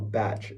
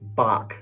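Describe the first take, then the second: First: The word ends with a 'tch' sound. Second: The word does not end with a 'tch' sound. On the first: The speaker calls it wrong. "It's not a batch" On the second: The speaker calls it right. "it's Bach"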